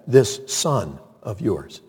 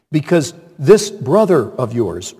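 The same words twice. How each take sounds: First: A quiet, disdainful "This son of yours"; older son disowning his brother, slow and cold; slow, quieter, contemptuous. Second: Said in the usual way. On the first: Retold or imitated. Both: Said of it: "the older brother said".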